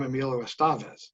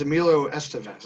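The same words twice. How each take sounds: First: Estevez with an open middle "ah", "es-TAH-vez"; his own pronunciation. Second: Estevez with a weak middle vowel, "ESS-tuh-vez"; usual pronunciation. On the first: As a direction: lean on the middle syllable of "Estevez". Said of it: "when he introduces himself to others". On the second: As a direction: stress the first syllable of "Estevez". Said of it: "that stuff is always weird to me". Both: Retold or imitated.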